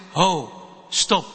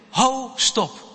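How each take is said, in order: First: A lightly voiced heavier teacher's voice; a hint of an adult stepping in firmly. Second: Raised, higher call to stop; a child bravely shouting stop; firm call to stop. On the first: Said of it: "een zwaardere stem achter je zegt". (iets zwaardere stem van de meester, rustig maar beslist) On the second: Acted. Child finally speaks up in fight. (kind roept luid en hoog: stop)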